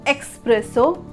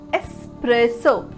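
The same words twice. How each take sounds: First: It begins with an 'ex' sound. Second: It begins with an 'es' sound. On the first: The speaker calls it wrong. "put unnecessary X" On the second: The speaker calls it right. "it's espresso"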